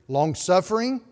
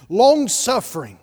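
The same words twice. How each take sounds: First: Said in the usual way. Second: Long-suffering said louder and higher, falling at the end; emphatic Long-suffering. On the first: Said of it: "list read, then repeated". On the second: Shown as a demonstration. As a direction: land hard on Long-suffering. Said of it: "word repeated with emphasis".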